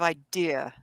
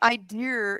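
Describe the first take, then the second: First: The word ends in a plain vowel, no R. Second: The word ends with an added R sound.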